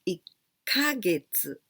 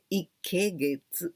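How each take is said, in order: First: The second syllable is pronounced 'ka'. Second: The second syllable is pronounced 'ke'. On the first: The speaker calls it right. "We pronounce always ikkagetsu" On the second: The speaker calls it wrong. "So maybe you say ikkegetsu. No, but we don't pronounce like that"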